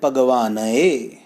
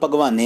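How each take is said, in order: First: The word ends in two separately sounded vowels. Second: The word ends in one merged 'e' vowel. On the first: The speaker calls it right. "ਉਚਾਰਨ ਗਲਤ ਹੈ, ਭਗਵਾਨਏ" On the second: The speaker calls it wrong. "ਇਹਨੂੰ ਭਗਵਾਨੇ ਨਹੀਂ ਪੜ੍ਹਨਾ"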